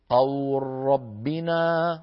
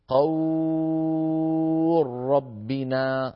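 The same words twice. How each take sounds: First: The vowel is held for two beats. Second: The vowel is held for six beats. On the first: "لنا أن نمدها حركتين" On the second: "ست حركات"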